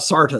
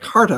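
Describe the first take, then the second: First: The name begins with an S sound. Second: The name begins with a K sound. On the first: The speaker calls it right. "So Sarta then" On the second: The speaker calls it wrong. "I've always pronounced it Carta"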